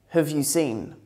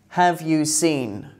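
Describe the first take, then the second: First: 'Have' is reduced to a weak form with schwa. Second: 'Have' is said in its full, strong form.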